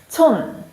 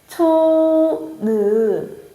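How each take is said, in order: First: The word is said as one closed syllable. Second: The final n is released as an extra syllable. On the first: The speaker calls it right. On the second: The speaker calls it wrong.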